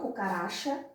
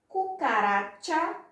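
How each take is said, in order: First: The ch is said without the t-like sound. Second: The ch is said with a t-like 'tch' sound. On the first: The speaker calls it wrong. "e não" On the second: The speaker calls it right. "O C H sempre com esse som de T"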